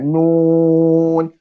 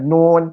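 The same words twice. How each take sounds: First: The vowel is held long. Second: The vowel is cut short. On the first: The speaker calls it right. "Kena enam harokat" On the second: The speaker calls it wrong. "Jangan pendek sangat. Jangan nun"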